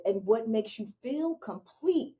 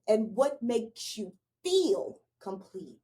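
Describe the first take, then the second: First: Said in the usual way. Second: "feel" stretched out long and weighted; emphasis on "feel". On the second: Real, not acted. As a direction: draw out "feel", then pause before "complete". Repeats the question slowly for emphasis.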